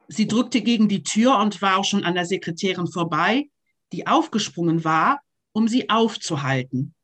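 It is read with breaks at each comma.

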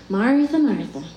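It is said in a condescending tone.

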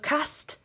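The word is said with a northern English vowel. "if we sounded like the most northern English choir ever because of"

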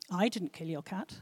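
The stress falls on 'I'.

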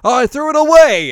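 It is said with exaggerated, tense enthusiasm.

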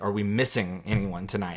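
It is said in a heavy, somber tone.

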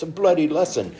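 It is said in a put-on British accent. It plays on the British swear word.

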